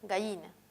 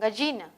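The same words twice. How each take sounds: First: The middle consonant is a palatal fricative. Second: The middle consonant is an affricate. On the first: "La fricativa palatal" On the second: "un sonido africado"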